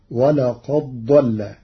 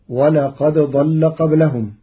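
First: ولقد ضل with the د merged into the ض, slowly; slow ولقد ضل with no separate د; ولقد ضل said as one doubled ض; Warsh merging. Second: Said in the usual way. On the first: Shown as a demonstration. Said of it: "بإدغام الدال في الضاد". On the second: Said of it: "قرأ ورش كلمتي ولقد ضل".

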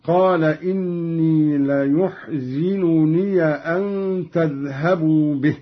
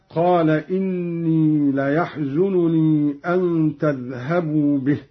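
First: ليحزنني as layuhzinuni, ya open; Qalun reading. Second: Said in the usual way. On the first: Shown as a demonstration. Teacher recites Qalun's ليحزنني slowly. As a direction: say ليحزنني with u then zi, ya opened. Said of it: "بضم الياء من يحزنني وكسر الزاي". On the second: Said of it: "هكذا".

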